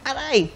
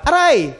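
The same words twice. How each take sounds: First: The cry of pain sounds forced and unfelt. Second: The cry of pain sounds spontaneous and genuine. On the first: The pain is not really felt. The speaker calls it wrong. "Hindi siya pwedeng" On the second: The pain is real and felt. The speaker calls it right. "Sabay-sabay, di ba?"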